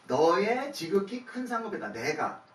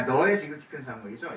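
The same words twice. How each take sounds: First: 너의 stressed, 상급이다 falling firmly, said slowly; firm declaration. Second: 너의 stressed, 상급이죠 with a questioning rise at the end; questioning read. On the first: Pastor reading the corrected verse aloud, slow and firm. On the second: Pastor checking the verse's wording with the congregation, asking with a rise. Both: Shown as a demonstration. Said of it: "저기 너라고 돼 있는데".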